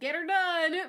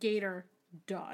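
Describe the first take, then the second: First: The phrase is said quickly, run together. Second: The phrase is said slowly, words kept apart. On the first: It sounds like the slogan get 'er done. "if you read it fast, it'd be like" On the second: It refers literally to the alligators. "But it was like"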